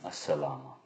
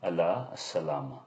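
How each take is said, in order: First: The first word is shortened and joined on. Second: The first word is said in full. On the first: This is the Iraqi dialect form. "in the Iraqi dialect, Allah Salama becomes" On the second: This is the standard written form. "In M S A, it's written and pronounced as"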